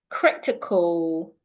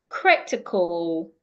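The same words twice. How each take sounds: No difference in how they are said.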